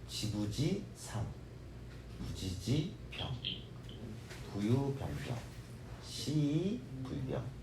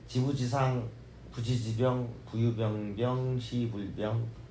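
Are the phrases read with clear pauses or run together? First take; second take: clear pauses; run together. First: The phrases are separated by clear pauses. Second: The phrases run together without clear pauses. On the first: The meaning becomes much easier to understand. The speaker calls it right. "이렇게 좀 띄어서 읽으시면" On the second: The meaning is harder to grasp. The speaker calls it wrong. "그렇게 읽지 마시고"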